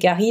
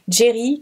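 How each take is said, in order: First: The name starts with a hard G sound. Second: The name starts with a soft J sound. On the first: This is how the name was originally said. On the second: This is how the name is usually said today.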